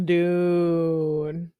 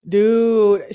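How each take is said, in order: First: Long, rising, disbelieving dude; drawn-out dude. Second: Louder, falling dude; emphatic dude. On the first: To friends, hearing the texts, a long rising dude. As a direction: stretch out Dude like you can't believe it. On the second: To friends, before reading the next text, an emphatic louder dude. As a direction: land Dude hard and louder. Reacting in disbelief to the story. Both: Real, not acted.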